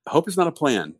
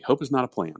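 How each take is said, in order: First: "not" stressed high and firm; quoting boss. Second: Said in the usual way. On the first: Retold or imitated. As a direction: quote "Hope is not a plan," with a high punch on "not". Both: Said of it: "is what she would always tell me".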